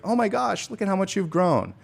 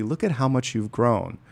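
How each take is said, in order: First: High, delighted gush; doting grandparent. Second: Plain, steady and heartfelt; sincere. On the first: Retold or imitated. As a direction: coo over how tall the kid got. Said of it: "grandparents were like". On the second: Shown as a demonstration. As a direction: say it straight to them, meaning it. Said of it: "I'm gonna say it to you energetically".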